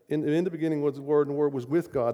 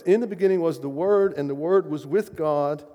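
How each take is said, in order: First: Said in the usual way. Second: Proclaimed reading. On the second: Shown as a demonstration. Preacher proclaims the opening verse to the congregation, louder. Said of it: "Very first verse".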